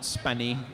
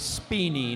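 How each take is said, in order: First: The first vowel is a short e sound. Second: The first vowel is a long ee sound. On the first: The speaker calls it wrong. "not Spenny" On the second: The speaker calls it right. "That'll be Speeny"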